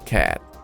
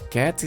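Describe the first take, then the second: First: The final T of cat is cut off. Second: The final T of cat is clearly pronounced. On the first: "Você pode omitir, frear ali o som da letra T" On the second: "A letra T é pronunciada porque vem seguido de um som de vogal"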